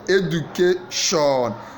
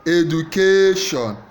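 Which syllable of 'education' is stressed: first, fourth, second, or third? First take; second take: fourth; third. First: The stress is on the fourth syllable. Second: The stress is on the third syllable. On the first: "Fourth syllable" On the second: "Third syllable"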